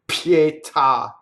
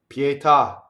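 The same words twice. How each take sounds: First: The T is released with a puff of air. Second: The T is released without a puff of air. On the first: The speaker calls it wrong. "nor the T having a puff of air like pietà. Never" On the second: The speaker calls it right. "That's how you say it"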